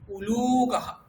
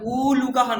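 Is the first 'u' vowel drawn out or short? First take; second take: short; drawn out. First: The first vowel is kept short. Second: The first vowel is drawn out long. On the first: The speaker calls it right. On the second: The speaker calls it wrong.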